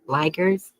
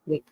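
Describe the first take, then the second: First: The first vowel is a long 'eye' sound. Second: The first vowel is a short 'i' sound. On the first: "Is it long eye?" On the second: "Short eye"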